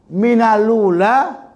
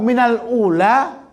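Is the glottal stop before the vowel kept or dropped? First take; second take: dropped; kept. First: The l links straight into ula, no glottal stop. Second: A glottal stop separates minal and ula. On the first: This is the reading of another tradition. "Minalula Warash. Karena hamzahnya sudah diiskot" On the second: This is the reading of one tradition. "Kalau minal ula itu hafs"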